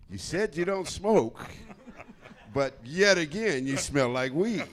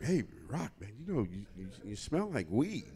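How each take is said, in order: First: Slow, high, loud singsong reproach; mock accusation. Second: Halting, awkward imitation of a polite complaint; hesitant confrontation. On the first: VIP hosts to Rock next time round, pointedly accusing. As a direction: draw out the accusation in a raised, swooping voice. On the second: VIP hosts to Rock about the smell, tactfully hesitant. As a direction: broach it gingerly, stumbling over the words.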